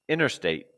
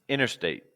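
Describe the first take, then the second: No difference in how they are said.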